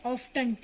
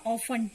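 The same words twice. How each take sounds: First: "Often" said with the t sounded, "off-tun"; wrong pronunciation. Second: "Often" said "off-en" with a silent t; teacher models the silent t; correct pronunciation. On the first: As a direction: voice the t, the common mistake. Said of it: "It's wrong". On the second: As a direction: drop the t, "off-en". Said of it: "टी इसमें क्या होगा? Silent". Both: Shown as a demonstration.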